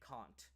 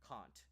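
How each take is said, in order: First: It is said in a British accent. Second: It is said in a British accent.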